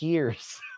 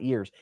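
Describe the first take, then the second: First: The word starts with an extra breathy h-sound. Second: The word starts without an extra breathy h-sound. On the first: The speaker calls it right. "With that emphasis on a, an invisible H" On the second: The speaker calls it wrong. "Not years"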